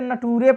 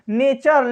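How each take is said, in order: First: The middle consonant is a plain t sound. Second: The middle consonant is a ch sound. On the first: The speaker calls it wrong. "बहुत लोग इसे नटूरे पढ़ देते हैं" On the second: The speaker calls it right. "नटूरे फटूरे नहीं है बाबू, ये क्या है?"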